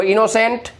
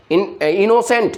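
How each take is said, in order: First: Said in the usual way. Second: इनोसेंट broken slowly into इनो and सेंट; इनोसेंट said in two slow parts, इनो then सेंट; split into syllables. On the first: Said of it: "ये सब में word break हो रहा है ना". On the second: Shown as a demonstration. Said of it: "इनो और सेंट".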